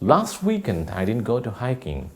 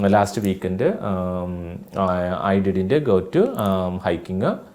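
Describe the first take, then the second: First: The sentence is said quickly and smoothly. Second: The sentence is said slowly, word by word. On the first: The speaker calls it right. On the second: The speaker calls it wrong.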